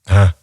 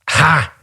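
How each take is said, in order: First: It sounds soft and sympathetic. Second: It sounds scornful and dismissive. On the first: The listener shares the disappointment. "I genuinely felt sympathy then" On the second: The compliment is rejected. "you're just going to make me feel bad about it"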